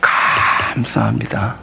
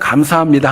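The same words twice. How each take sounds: First: The phrase is said with a marked, expressive tone. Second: The phrase is said plainly, without special tone. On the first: "감사합니다 톤이 좀 다르시죠?" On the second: "저는 그냥 감사합니다 합니다"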